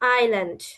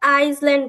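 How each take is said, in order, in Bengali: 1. l-এর আগে কোনো s-এর শব্দ উচ্চারিত হয় না। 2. l-এর আগে একটি s-এর শব্দ উচ্চারিত হয়। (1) "এসটা হবে সাইলেন্ট থাকবে" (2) "অনেকে কিন্তু এটাকে আইসল্যান্ড বলে, কিন্তু আইসল্যান্ড হবে না।"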